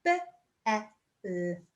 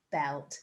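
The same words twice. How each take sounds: First: B-E-L-T spelled out slowly, each letter apart; sounded out letter by letter. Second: Said in the usual way. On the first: Shown as a demonstration. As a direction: say B-E-L-T one letter at a time. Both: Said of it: "Let's sound it, the word out now".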